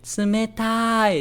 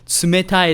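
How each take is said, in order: First: The word is stretched out long. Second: The word is said at normal length.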